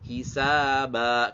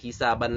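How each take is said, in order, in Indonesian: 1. Kata ini diakhiri dengan vokal panjang. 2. Kata ini diakhiri dengan bunyi n. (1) "menjadi hisaba ketika waqaf" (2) "tidak hisaban lagi"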